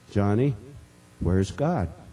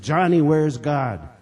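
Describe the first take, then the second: First: The question is asked at a normal, quiet volume. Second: The question is asked in a big, loud voice.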